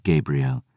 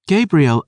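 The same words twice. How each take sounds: First: Low, soft, icy naming; quiet cold Selene voice. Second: Put-on high, louder pleading girl voice; a young girl insisting, higher and louder; insistent girl. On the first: Acted. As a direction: say his name coldly, hushed. Selene names him, low and quiet. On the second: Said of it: "she insisted".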